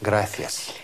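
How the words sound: The c sounds like English th. This is the pronunciation used in Spain. "Если вы ориентированы именно на Испанию, на Кастилию"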